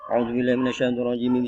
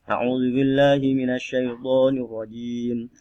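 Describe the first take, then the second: First: The phrase is recited very quickly. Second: The phrase is recited at a moderate speed. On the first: "Itu contohnya hadar ya. Cepat sekali" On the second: "Tidak cepat juga tidak pelan"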